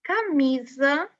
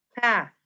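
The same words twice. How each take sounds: First: Camisa drawn out, slow and rising; slow teaching read of "Camisa"; slow syllables. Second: Said in the usual way. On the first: Shown as a demonstration. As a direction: stretch out each syllable of "Camisa". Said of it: "slow teaching read". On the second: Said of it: "quick repeat".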